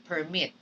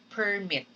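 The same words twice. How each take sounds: First: "permit" stressed on the second syllable, per-MIT. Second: "permit" stressed on the first syllable, PER-mit. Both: Shown as a demonstration. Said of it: "the er and the air in permit".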